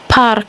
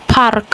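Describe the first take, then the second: First: The R sound is pronounced. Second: The same.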